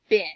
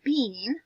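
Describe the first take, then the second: First: The vowel is short, like in bin. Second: The vowel is long, like in bean. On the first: The speaker calls it right. "let's try the vowel the short way" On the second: The speaker calls it wrong. "This is not the word bean"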